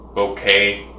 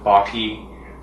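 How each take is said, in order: First: The word sounds like bouquet. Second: The word does not sound like bouquet. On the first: "Some people pronounce it like bouquet" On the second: "Some people pronounce it bokeh"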